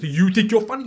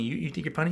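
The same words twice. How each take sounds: First: High, very loud incredulous question; hammed-up indignant comeback; loud retort. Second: Said in the usual way. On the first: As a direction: throw the challenge back sharply. Challenge thrown back loudly.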